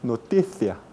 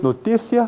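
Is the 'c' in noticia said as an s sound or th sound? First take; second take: th sound; s sound. First: The c sounds like a th. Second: The c sounds like an s. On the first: This is the Castilian pronunciation. The speaker calls it right. "como se dice noticia" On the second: This is the Latin American pronunciation. The speaker calls it wrong. "No es noticia"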